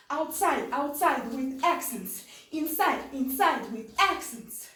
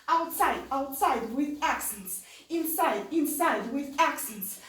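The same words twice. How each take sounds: The two takes are said the same way.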